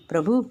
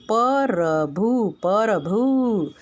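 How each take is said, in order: First: प्रभु with a tight "pr" cluster, no vowel between; correct prabhu. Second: प्रभु split as pa-ra-bhu, slow and wrong; teacher demonstrates the wrong way: प्रभु drawn out as "परभु"; wrong syllable-split prabhu. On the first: Teacher to class, correct form: clean प्रभु. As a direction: say प्रभु in one clean syllable start. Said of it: "देखो". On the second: Teacher to class, showing the mistake: slow split प्रभु. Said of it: "लेकिन ऐसा नहीं होता है". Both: Shown as a demonstration.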